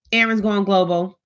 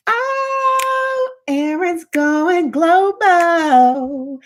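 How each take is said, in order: First: Said in the usual way. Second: High, very slow sing-song announcement; excited. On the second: Real, not acted. Hyping up a viewer on the live stream, slow and sing-song. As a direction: stretch it out, delighted.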